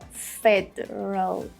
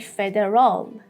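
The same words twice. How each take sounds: First: The unstressed vowels are reduced to schwa. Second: The unstressed vowels are pronounced fully. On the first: The speaker calls it right. "We have two schwa sounds here" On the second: The speaker calls it wrong. "Do not say federal"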